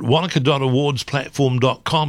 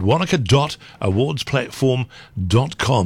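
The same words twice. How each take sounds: First: It is said at normal speed. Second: It is said slowly.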